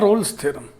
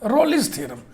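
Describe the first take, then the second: First: The name is said as one syllable. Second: The name has an extra vowel, two syllables. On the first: This is the pronunciation found online. "मैंने देखा Google पे" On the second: This is the reading most people habitually use. "Maximum लोग जो है रोलिस theorem"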